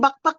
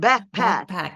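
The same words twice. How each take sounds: First: It is said with a Filipino accent. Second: It is said with an American accent. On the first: The speaker calls it wrong. "Accent natin like tawag natin natin backpack" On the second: The speaker calls it right. "Eh dito hindi, your backpack"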